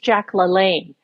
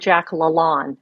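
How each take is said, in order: First: The surname is said in the usual American way. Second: The surname is said in an unusual, non-American way. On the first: This is how Americans know the name. The speaker calls it right. "every American knows that" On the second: This is how the British narrator said it. The speaker calls it wrong. "she mispronounces one name"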